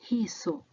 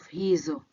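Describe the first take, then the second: First: The middle consonant is an S sound. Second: The middle consonant is a Z sound. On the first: The speaker calls it wrong. "they pronounce as S" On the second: The speaker calls it right. "meaning those"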